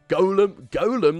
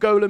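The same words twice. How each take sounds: First: The word is said in a posh-sounding way. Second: The word is said in a plain, ordinary way.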